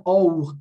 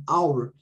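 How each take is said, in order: First: "our" read as "o-ur", Portuguese letter sounds; spelled-out pronunciation. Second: "our" said as "AU-er"; English pronunciation. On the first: Teacher ruling out the wrong reading, mispronounced. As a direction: say "our" just as written in Portuguese. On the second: Teacher correcting the wrong reading, English pronunciation. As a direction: glide from "ow" into "our". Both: Shown as a demonstration. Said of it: "não é our".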